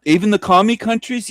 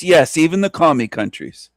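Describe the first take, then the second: First: High, disbelieving question, lightly voiced; a hint of a doubting listener asking; mock incredulous question. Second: Said in the usual way. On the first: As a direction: play the shocked listener asking it. Answers an imagined incredulous question.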